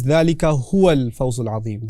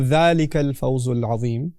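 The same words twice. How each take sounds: First: ذَلِكَ هُوَ الْفَوْزُ الْعَظِيمُ with the added هُوَ stressed; emphatic recitation. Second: Said in the usual way. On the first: Shown as a demonstration. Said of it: "adds an emphatic tone".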